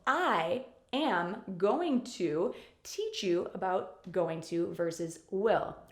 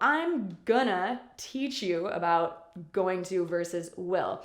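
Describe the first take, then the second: First: I am going to is said in full. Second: It is contracted and reduced to gonna. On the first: "the complete form as I just said them" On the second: "You'll often hear native speakers saying gonna"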